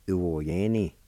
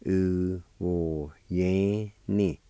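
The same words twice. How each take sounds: First: Said in the usual way. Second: "U wo ye ni" very slow, every syllable stretched; slow syllable sounding-out. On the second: Shown as a demonstration. Teacher repeating the word hand for learners, slowly syllable by syllable. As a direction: draw out each syllable of "U wo ye ni". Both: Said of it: "it's pronounced like this".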